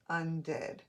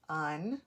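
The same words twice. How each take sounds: First: "undid" as one joined word; un and did blended in "undid", falling at the end; pushed together. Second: "Undid" split as un, long pause, did; separated syllables. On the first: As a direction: say "undid" with no gap between syllables. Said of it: "when I push it together, I have my word". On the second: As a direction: leave a long gap inside "Undid". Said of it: "I'm only separating it to show you". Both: Shown as a demonstration.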